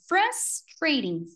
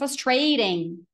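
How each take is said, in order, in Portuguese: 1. A sílaba tônica é a primeira. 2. A sílaba tônica é uma sílaba posterior. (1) "Frus. Sobe, morre e desce" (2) "Já ouvi muita gente falando"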